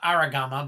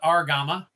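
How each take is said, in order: First: An extra vowel sits between the r and g. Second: No vowel sits between the r and g. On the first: The speaker calls it wrong. "Not Aragama" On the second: The speaker calls it right. "but Argama"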